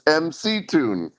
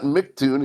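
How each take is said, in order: First: The first part is said as two letters, 'M C'. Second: The first part is said as one syllable, 'Mick'. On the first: The speaker calls it right. "It's M C Tune" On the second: The speaker calls it wrong. "It's not [name]"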